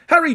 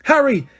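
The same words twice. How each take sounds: First: Falling, urgent call of his name; repeated frantic yell. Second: High, loud shout of his name; frantic yell. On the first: Teammate shouting again at Harry, urgent yell. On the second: Teammate screaming at Harry mid-brawl, frantic yell. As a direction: scream to stop the fight. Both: Acted. Girl screams at fight on pitch.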